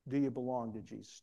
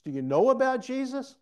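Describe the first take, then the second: First: Said in the usual way. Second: KNOW ABOUT pushed high and loud; high, loud contrast. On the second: Real, not acted. Preacher contrasts knowing with belonging, high and loud. Contrasted, dismissed question to congregation.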